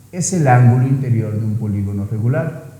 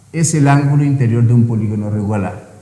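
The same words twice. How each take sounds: No difference in how they are said.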